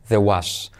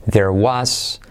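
First: "There" reduced to "the", no R before "was"; quick "the-was" for "There was"; dropped R. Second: "there" with its final R sounded; careful "there was" with audible R; R kept. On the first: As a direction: let the R of "There" fall away. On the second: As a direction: hold the R in "there" before "was". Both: Shown as a demonstration. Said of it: "ese R puede caer".

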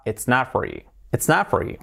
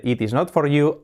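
First: "It's not for you" run together as one word; quick connected "It's not for you"; linked natural form. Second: "It is not for you" with each word whole and separate; unlinked, careful "It is not for you"; every word of "It is not for you" sounded out; written full form. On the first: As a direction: contract and link "It's not for you" smoothly. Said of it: "cómo pasamos de eso de "It is not for you" a". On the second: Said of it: "cómo pasamos de eso de". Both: Shown as a demonstration.

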